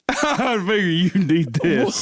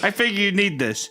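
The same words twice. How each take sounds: First: It is said in an exaggerated put-on voice. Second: It is said in the reader's normal voice.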